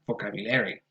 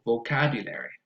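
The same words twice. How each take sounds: First: The stress is not on the second syllable. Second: The stress is on the second syllable. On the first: The speaker calls it wrong. "and not vocabulary" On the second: The speaker calls it right. "The stress goes on the second syllable"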